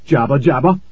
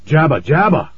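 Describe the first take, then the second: First: "Jabba jabba" rising at the end like a question; asked as question. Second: "Jabba jabba" higher, falling at the end; exclaimed gibberish. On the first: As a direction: ask "Jabba jabba" with the pitch lifting at the end. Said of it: "Colin asked". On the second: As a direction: exclaim "Jabba jabba" with a high peak, then drop. Colin's babbling outburst, exclaimed. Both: A narrator's reading.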